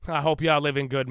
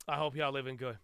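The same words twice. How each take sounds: First: Said in the usual way. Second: Much softer, held-back voice; hushed greeting. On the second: Real, not acted. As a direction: drop right down for a soft greeting. Soft take before repeating it normally.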